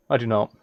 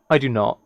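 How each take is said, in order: Both takes have the same delivery.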